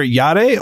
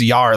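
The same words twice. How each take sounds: First: YARE said as YAH-day; two-syllable reading. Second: YAR as one syllable, like a pirate's arr; pirate-sound reading. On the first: Host weighs two readings of the word, YARE in two syllables. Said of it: "it's either yare or it's yar". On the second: Host weighs two readings of the word, YAR like a pirate. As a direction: say YAR with a piratical open R ending. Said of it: "like a pirate sound". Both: Shown as a demonstration.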